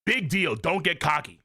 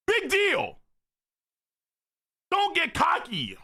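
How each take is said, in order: First: Said in the usual way. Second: High-pitched acted rebuke; high voice dropping at each phrase end; scolding character voice. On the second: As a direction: scold sharply in a high anime voice. Acts out manga dialogue.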